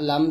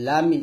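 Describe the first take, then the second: First: It ends on the m with no vowel. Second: An i vowel is added after the final m. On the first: The speaker calls it right. "কিন্তু লাম মিম জবর লাম এরকম" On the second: The speaker calls it wrong. "আমরা অনেক ... লামি এরকম বলি লামি না"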